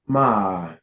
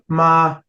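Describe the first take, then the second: First: The pitch dips down then rises. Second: The pitch stays high and level. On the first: "your falling rising tone" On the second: "your high neutral tone"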